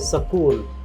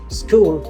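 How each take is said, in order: First: A vowel is inserted between the s and k. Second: It begins with the sk cluster, no added vowel. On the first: The speaker calls it wrong. "they say sakul" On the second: The speaker calls it right. "instead of telling school"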